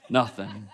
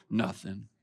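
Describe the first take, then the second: First: A drawn-out, sulky "Nothing" through a laugh; hammed-up passive aggressive sulk; mock sulky nothing, laughing. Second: A curt, sulky "Nothing". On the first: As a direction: play the martyr, laughing. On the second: Acted. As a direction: answer in a low, clipped sulk. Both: Passive aggressive sulking reply.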